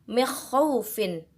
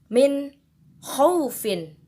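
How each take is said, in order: First: The n sound is blurred, not clearly pronounced. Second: The n sound is pronounced clearly. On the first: The speaker calls it wrong. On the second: The speaker calls it right. "maka cara bacanya pun harus dijelaskan"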